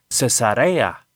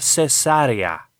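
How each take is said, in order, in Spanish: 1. El acento está en la tercera sílaba. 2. El acento está en la segunda sílaba. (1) "no lleva tilde. Así que se pronuncia Cesarea" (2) "esa palabra lleva acento en la antepenúltima sílaba"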